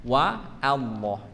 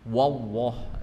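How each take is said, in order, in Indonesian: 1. Suku kata pertama wa terdengar tipis dan ringan. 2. Suku kata pertama wa terdengar tebal dan berat. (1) "Wanya dibaca dengan huruf yang tidak terangkat pangkal lidahnya... waw dibaca dengan huruf yang tipis" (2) "bukan wallah"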